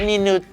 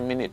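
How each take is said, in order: First: The word is sounded out from its spelling. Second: The word has its usual spoken pronunciation. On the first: The speaker calls it wrong. "หรือ" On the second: The speaker calls it right. "แต่มันเป็น"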